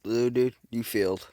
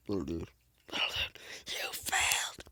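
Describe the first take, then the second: First: Said in the usual way. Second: Unvoiced whispered taunt. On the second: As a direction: breathe it like a secret.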